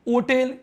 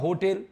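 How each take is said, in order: First: The word begins directly with a vowel. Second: The word begins with an h sound. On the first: The speaker calls it wrong. "ओटेल या होटेल?" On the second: The speaker calls it right. "होटेल बोलेंगे sir"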